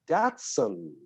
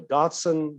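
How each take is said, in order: First: "Datsun" with first syllable like "that"; short-A Datsun. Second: "Datsun" said as "DAHT-sun"; broad-A Datsun. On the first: Actor showing how a car name is pronounced, "Datsun" with short A. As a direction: say "Datsun" with the A of "cat". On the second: Actor contrasting pronunciations he had to learn, "Datsun" with "ah". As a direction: open the first A of "Datsun" to "ah". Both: Shown as a demonstration. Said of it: "in the United States".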